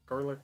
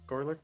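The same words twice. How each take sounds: No difference in how they are said.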